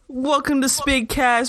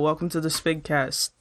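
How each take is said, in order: First: It is said with lively, radio-host energy. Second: It is said flatly, with little energy.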